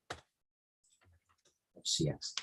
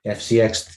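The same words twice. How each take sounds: First: Slow breathy whisper of the ticker. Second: Said in the usual way. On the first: Real, not acted. Host reading his chart, whispering to himself. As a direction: breathe the letters out slowly under your breath.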